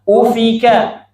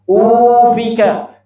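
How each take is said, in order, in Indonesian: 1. Vokal pertama panjangnya biasa dan rata. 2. Vokal pertama dipanjangkan terlalu lama. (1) "sekarang gabung sempurna" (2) "berarti u-nya keli keliru. Jangan dipanjangkan"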